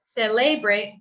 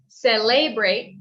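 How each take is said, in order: Both takes have the same delivery.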